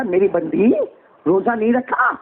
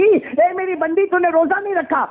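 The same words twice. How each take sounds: First: Said in the usual way. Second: God questioning his servant. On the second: Acted. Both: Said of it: "اللہ کہے گا،".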